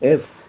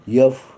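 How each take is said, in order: First: The letter name begins with a plain vowel. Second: The letter name begins with a y sound. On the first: The speaker calls it right. "These are the pronunciations of the of our alphabets" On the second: The speaker calls it wrong. "कृपया चुकीचे उच्चार करू नका. जसं यफ"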